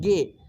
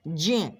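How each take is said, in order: First: The syllable begins with a hard g sound. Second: The syllable begins with a j sound. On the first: The speaker calls it wrong. "जो कि बिल्कुल गलत बोलते हैं" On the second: The speaker calls it right. "उच्चारण बोलना चाहिए सही से"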